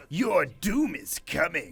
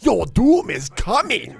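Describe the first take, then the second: First: Slow, drawn-out anime villain. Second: Louder, slow anime imitation. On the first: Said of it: "do it again?". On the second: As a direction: boom it out like an anime villain. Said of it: "yours is somehow more offensive". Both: Shown as a demonstration.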